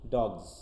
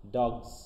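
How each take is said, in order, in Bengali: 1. শব্দটি দ্রুত বলা হয়, z ধ্বনি দিয়ে শেষ হয়। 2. শব্দটি দ্রুত বলা হয়, z ধ্বনি দিয়ে শেষ হয়।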